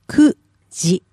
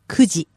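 First: It is said slowly, syllable by syllable. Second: It is said quickly as one word.

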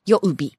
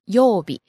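First: The first vowel is kept short. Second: The first vowel is held long. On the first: The speaker calls it wrong. "It's not 曜日" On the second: The speaker calls it right. "Right, it's a long O"

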